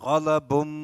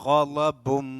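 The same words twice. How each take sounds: No difference in how they are said.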